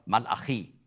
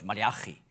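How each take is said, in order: First: The name is pronounced in its Hebrew form. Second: The name is pronounced in its German form. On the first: "Auf Hebräisch spricht man aus Malachi" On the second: "Wir sagen auf Deutsch Malachi"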